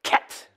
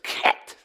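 First: The word starts with a throaty K sound. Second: The same.

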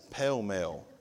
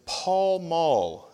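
First: It uses a regional Southern pronunciation. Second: It uses the standard pronunciation. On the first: This is how it is called locally. The speaker calls it wrong. "in West Tennessee, that's what we call them" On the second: This is the generally accepted form. The speaker calls it right. "the correct is Pall Mall"

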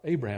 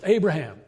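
First: It is said at a softer volume. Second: It is said at a louder volume.

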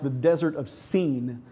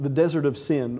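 First: The name has a long vowel, like 'seen'. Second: The name has a short vowel, like 'sin'. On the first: "it's actually pronounced the Desert of Seen, like an S-E-E-N" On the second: "a place called the Desert of Sin"

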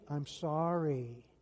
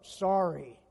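First: It is said in a sincere-sounding way. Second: It is said grudgingly, without meaning it.

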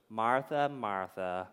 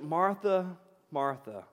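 First: It imitates Jesus' voice from old videos. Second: It is said in his plain reading voice.

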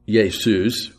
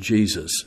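First: The name begins with a Y sound. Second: The name begins with a J sound. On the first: This is the older Latin pronunciation. "the Y sound of Y that had been associated with it before" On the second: This is the later pronunciation from around 1500. "but then it took on the J sound"

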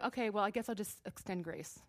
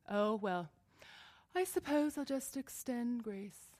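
First: It is said in a plain, ordinary tone. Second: It is said in a snooty, haughty tone.

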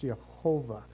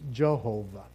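First: The name begins with a Y sound. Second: The name begins with a J sound. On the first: "the word Lord in the Hebrew is Yahweh or Yehovah. I'm sorry. It's Yehovah" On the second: "the way we pronounce it in English"

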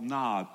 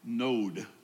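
First: The vowel sounds like the one in 'odd'. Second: The vowel sounds like the one in 'owed'. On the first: The speaker calls it wrong. "This land called Nod" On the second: The speaker calls it right. "actually Node, is a better ancient pronunciation of the word"

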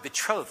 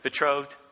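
First: The word is said with a put-on accent. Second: The word is said in a plain everyday voice. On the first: The speaker calls it right. "You have to say that word with some type of an accent" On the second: The speaker calls it wrong. "Doesn't sound good"

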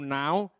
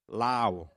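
First: The word begins with an N sound. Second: The word begins with an L sound. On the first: The speaker calls it right. "words like now, N-O-W, now" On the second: The speaker calls it wrong. "they say lao"

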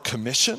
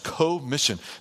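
First: The first syllable is not stressed. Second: The first syllable is stressed.

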